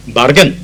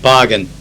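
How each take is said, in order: First: Put-on Asian accent. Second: Said in the usual way. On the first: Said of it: "delegate from some Asian country pronounced the word bargain". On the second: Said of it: "pronounced the word bargain".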